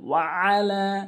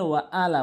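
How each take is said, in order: First: The sound after 'wa' is pressed hard. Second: The sound after 'wa' is said lightly. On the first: The speaker calls it right. "চাপ দিয়ে বলতে হবে" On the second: The speaker calls it wrong. "অনেকেই ভুল করে ওয়া আলা বলে"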